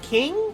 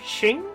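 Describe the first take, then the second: First: The word begins with a hard k sound. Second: The word begins with a ch sound. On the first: The speaker calls it wrong. "I'm gonna say this wrong" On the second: The speaker calls it right. "I think it's a C H sound"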